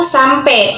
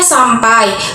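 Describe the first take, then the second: First: The word ends in a shifted 'e' vowel. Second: The word ends in the standard 'ai' vowel. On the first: The speaker calls it wrong. "mengalami kesalahan peralihan fonem vokal E" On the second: The speaker calls it right.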